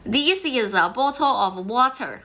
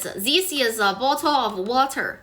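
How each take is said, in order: First: The sentence sounds accented, with altered sounds. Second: The same.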